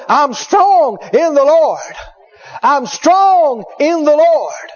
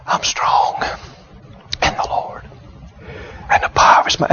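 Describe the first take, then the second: First: Imitating a revived patient, high and drawn out; strong, loud confession. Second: Imitating a feeble whisper, resting between words; weak. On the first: Revived patient sitting up in bed declaring faith, strong and high. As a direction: declare it slowly with STRONG stretched out. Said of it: "talking so loud you could hear 'em outside". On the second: Bedridden patient repeating a confession after the minister, weak halting whisper. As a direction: whisper it haltingly, pausing to rest every few words. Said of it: "just how weak they were".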